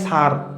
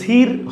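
First: The vowel sounds like the ur in fur. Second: The vowel sounds like the short i in hit. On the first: The speaker calls it right. "উচ্চারণ হয় সার" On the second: The speaker calls it wrong. "উচ্চারণ কিন্তু সির হয় না"

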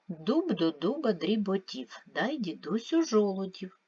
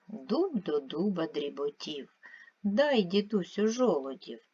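First: It is read at a faster, quicker pace. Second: It is read at a slower, ordinary pace.

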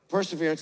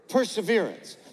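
First: It is said plainly, without extra energy. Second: It is said loudly, with passion.

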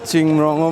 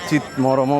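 First: The name begins with 'ching' and ends in 'rong'. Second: The name begins with 'chit' and ends in 'rom'. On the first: "অনেকে চিংমরংও বলে" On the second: "আবার চিতমরমও বলে"

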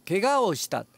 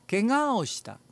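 The two takes are said the same way.

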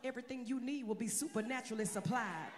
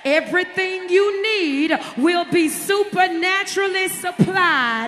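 First: It is said fast. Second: It is said slowly.

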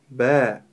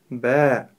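First: The sound ends with the mouth opened. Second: The same.

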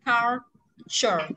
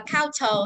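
First: The middle consonant is a ch sound. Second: The middle consonant is a plain t sound. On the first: The speaker calls it right. "mà mình đọc là culture" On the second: The speaker calls it wrong. "Chứ không đọc là culture"

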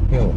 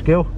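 First: The name begins with an H sound. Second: The name begins with a hard G sound. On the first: The speaker calls it right. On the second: The speaker calls it wrong.

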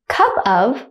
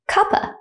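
First: The word 'of' is said in full. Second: The word 'of' shrinks to a schwa.

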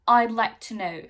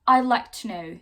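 The two takes are said the same way.

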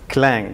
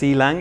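First: The C blends into one single syllable. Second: The C is said as a separate letter. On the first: The speaker calls it right. "It is actually Clang" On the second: The speaker calls it wrong. "Some people pronounce it as C-Lang"

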